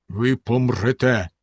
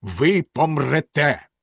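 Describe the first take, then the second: First: Stern. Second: Very slow, cold sentence; unmoved. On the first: Bluebeard condemns his wife, sternly and slowly. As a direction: pronounce it coldly and slowly. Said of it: "суворо сказав він". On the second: Bluebeard condemns his wife, unmoved and slow. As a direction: drag out the verdict coldly. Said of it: "незворушно сказав Синя Борода". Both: A narrator's reading.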